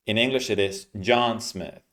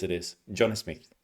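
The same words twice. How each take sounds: First: John Smith in English sounds; English name. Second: "John Smith" as in other languages, J like sh; "John" said shona-style, "Smith" softer; foreign pronunciation. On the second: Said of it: "In other languages". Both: Shown as a demonstration.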